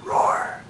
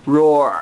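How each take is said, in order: First: Soft breathless roar; a hushed lion roar for the toddler; whispered roar. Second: Low voiced lion roar. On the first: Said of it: "What's a lion say?". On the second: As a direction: growl out a lion's roar. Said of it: "What's a lion do?". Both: Shown as a demonstration.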